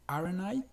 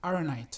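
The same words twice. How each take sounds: First: "aren't I?" rising at the end like a real question; aren't I asked as a question; wrong question rise. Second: "aren't I?" with the stress on aren and the pitch falling; aren't stressed, no question rise. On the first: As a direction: lift the I upward. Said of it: "no va a sonar". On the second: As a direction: hit aren't and drop the I. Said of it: "sino va a sonar". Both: Shown as a demonstration.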